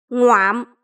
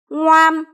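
First: The pitch drops low with a creaky cut-off. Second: The syllable is said on a level pitch.

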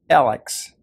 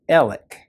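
First: The name ends with a ks sound. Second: The name ends with a plain k sound. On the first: This is how the spelling suggests saying it. "it should be pronounced Alex" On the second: This is how the family says the name. "my mother said Alec"

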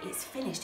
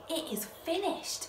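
First: It sounds defeated and deflated. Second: It sounds triumphant and victorious.

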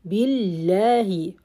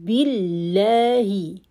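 No difference in how they are said.

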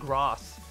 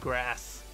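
First: It has a British-style long broad vowel. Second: It has an American-style short flat vowel.

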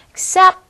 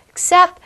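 The two takes are said the same way.

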